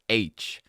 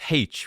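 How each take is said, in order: First: The letter name begins with a vowel sound. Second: The letter name begins with an h sound. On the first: This is how most other people say it. The speaker calls it wrong. "most people actually pronounce it as H" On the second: This is the Irish way of saying it. The speaker calls it right. "In Ireland, we pronounce it as H"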